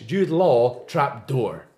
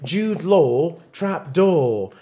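First: "Jude Law trap door" slowly in a Scottish accent, R sounded in "door"; Scottish rhotic "door", slow and lower. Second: "Jude Law trap door" slowly in an English accent, no R in "door"; English non-rhotic "Law" and "door". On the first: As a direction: keep "Law" and "door" from rhyming, Scottish style. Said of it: "But if you're Scottish". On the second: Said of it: "if you're, if you're English". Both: Shown as a demonstration.

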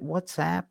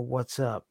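First: WhatsApp with the last syllable as "app"; stress-neutral WhatsApp, ending like the word "app". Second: WhatsApp with the last syllable as "up"; WhatsApp said as "what's up". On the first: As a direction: say WhatsApp with a short "a" as in "cat" at the end. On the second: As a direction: say WhatsApp just like the greeting "what's up". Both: Shown as a demonstration. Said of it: "Is it WhatsApp or WhatsApp?".

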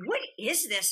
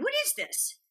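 First: Said in the usual way. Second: High mock puzzled boyfriend. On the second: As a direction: squeak it out, baffled by the script. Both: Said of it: "he's like".

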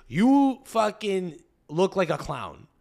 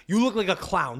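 First: Slow, drawn-out put-down; Montreal attitude. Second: Said in the usual way. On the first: Acted. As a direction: spell out the insult slowly, Montreal style. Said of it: "The Montreal attitude is". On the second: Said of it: "It's like".

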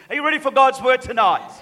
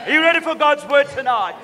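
Both takes have the same delivery.

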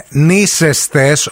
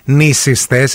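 First: Νήσεστες pronounced NEE-ses-tes, middle vowel open "e"; corrected pronunciation with epsilon. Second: Νήσιστες pronounced NEE-sis-tes, middle vowel "i"; rejected pronunciation with iota. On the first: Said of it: "είναι νήσεστες με έψιλον". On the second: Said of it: "όχι νήσιστες". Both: Shown as a demonstration.

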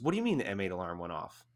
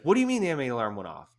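First: Said in the usual way. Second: Fast, louder, higher alarmed demand; panicked question. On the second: Retold or imitated. Buddy demanding answers about the chemical alarm, panicky. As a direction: rattle it off in rising panic. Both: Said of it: "I can hear it in his voice".

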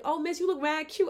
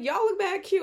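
First: High, loud imitation of gushing teens; excited teenage girls. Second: Very high, loud retold gush; excited compliment back. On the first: Teen girls complimenting a woman on the train, imitated high gushing. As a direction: gush like a teenage girl, pitched way up. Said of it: "the teenage girls when I'm on the train". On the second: Woman answering teen girls on the train, loud high excitement. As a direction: fire the compliment back, louder and higher.

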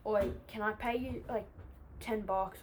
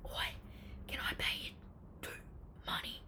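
First: Said in the usual way. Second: Hushed, furtive offer; acting out a nervous, whispered deal. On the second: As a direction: whisper it like a secret bribe. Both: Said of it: "obviously really nervous".

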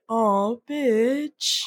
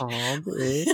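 First: Soulful sigh. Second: Laughing echo. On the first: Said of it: "his, like, soulful". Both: Retold or imitated.

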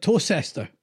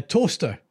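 First: "Tocester" in three syllables, toe-SESS-ter; "Tocester" with the "cester" fully sounded; pronounced as spelt. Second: "toaster" in two syllables, TOAST-er; "toaster", with the middle of the name swallowed; pronounced like toaster. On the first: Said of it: "'cause that looks like". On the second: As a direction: say the town's name just like "toaster". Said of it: "it's a wee bit like". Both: Shown as a demonstration.

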